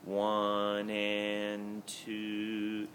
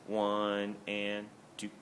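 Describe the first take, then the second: First: The final word is held out longer. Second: The final word is cut off quickly. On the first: The singers keep holding the note through beat two. The speaker calls it right. "show a little duration on two" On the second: The singers stop the note quickly on two. The speaker calls it wrong. "instead of just one and two"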